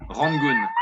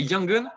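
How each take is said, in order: First: "Rangoon" with a French R at the start. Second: "Yangon" with a Y and English vowels. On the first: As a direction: open with a French throat R in "Rangoon". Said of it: "with the R". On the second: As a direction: say "Yangon" the way foreigners say it. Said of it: "if you say Yangon". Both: Shown as a demonstration.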